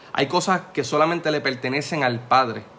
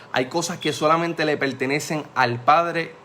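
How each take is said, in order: The two takes are said the same way.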